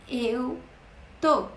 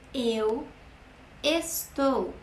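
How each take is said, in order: First: The verb is said in a shortened form. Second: The verb is said in its full form.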